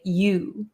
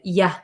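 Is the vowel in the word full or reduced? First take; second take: full; reduced. First: The word has a full, tense vowel. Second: The word has a relaxed, reduced vowel. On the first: "we need to use these muscles" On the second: "It's much easier and our jaw doesn't get tired"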